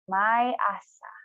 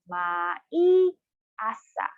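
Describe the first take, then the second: First: It is said at a normal, connected speed. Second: It is said slowly, one syllable at a time.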